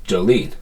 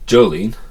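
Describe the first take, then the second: First: "Jolene" as jo-LEAN, weight on "lene"; stress on second syllable. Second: "Jolene" as JO-lene, weight on the "Jo"; wrong stress on first syllable. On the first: Teacher correcting the name's emphasis, "Jolene" stressed jo-LEAN. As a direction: land on the end of "Jolene": jo-LEAN. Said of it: "just the way you say the name". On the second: Teacher showing how not to say the name, "Jolene" stressed JO-lene. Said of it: "It's not". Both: Shown as a demonstration.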